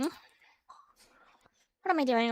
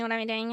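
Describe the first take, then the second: First: Slow whisper to self. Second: Said in the usual way. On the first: Real, not acted. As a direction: whisper it slowly.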